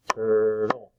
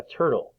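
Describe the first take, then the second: First: "turtle" in two level, drawn-out beats; split into syllables. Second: Said in the usual way. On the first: Shown as a demonstration. Teacher clapping syllables for children, "turtle" split in two. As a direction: stretch both parts of "turtle". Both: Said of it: "clap out the different parts".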